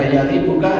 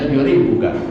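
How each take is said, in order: First: The first syllable has the vowel 'a'. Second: The first syllable has the vowel 'u'. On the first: "bi fathil ya'i ... Yang membaca fathah itu lebih fasih dan juga lebih masyhur" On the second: "wa dhammiha ... dan boleh juga dibaca dhamm"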